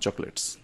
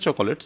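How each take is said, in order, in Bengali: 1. এটি দুটি অংশে উচ্চারিত হয়। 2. এটি তিনটি অংশে উচ্চারিত হয়। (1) "বাট উচ্চারণটা চকলেটস" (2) "উচ্চারণটা চকোলেটস হয় না"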